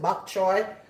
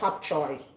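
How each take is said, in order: First: The word begins with a B sound. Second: The word begins with a P sound. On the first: This is how people elsewhere say it. "depending on where you're from, you pronounce it bok choy" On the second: This is how people in Jamaica say it. "We in Jamaica we say pop choy"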